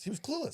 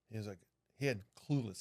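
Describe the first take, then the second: First: "clueless" jumps high and rises; disbelieving "clueless" pitched up high; stressed clueless. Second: Said in the usual way. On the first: Real, not acted.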